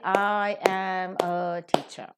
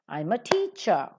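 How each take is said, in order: First: The word 'am' is said in its full form. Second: The word 'am' is reduced to a weak form. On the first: The speaker calls it wrong. "You cannot say, ... That spoils the rhythm of the language" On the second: The speaker calls it right. "all of them are reduced to their weak forms"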